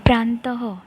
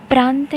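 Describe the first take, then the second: First: प्रांतः with a breathy h after the final a; correct pronunciation. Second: प्रांत said short, ending clipped on the t with no vowel after; wrong pronunciation. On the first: Teacher giving children the right reading, प्रांतः with breathy final h. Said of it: "अब यहाँ पे हम प्रांतः ऐसा कहेंगे". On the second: Teacher showing children the wrong reading, प्रांत clipped at the t. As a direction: say प्रांत as the common mistake, stopping dead on the t. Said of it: "अब यहाँ पे हम प्रांत नहीं कहेंगे". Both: Shown as a demonstration.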